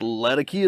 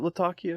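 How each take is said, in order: First: It is pronounced in an American-sounding way. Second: It is pronounced in a Middle Eastern-sounding way. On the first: "but it's Latakia to me" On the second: "that's a Turkish Middle Eastern pronunciation"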